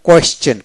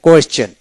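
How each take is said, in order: Both takes have the same delivery.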